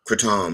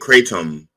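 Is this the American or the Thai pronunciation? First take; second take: Thai; American. First: It is pronounced the way Thai speakers say it. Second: It is pronounced the way American speakers say it. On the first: "that's the how they pronounce it in Thailand" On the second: "kratom is how we say it in the U S"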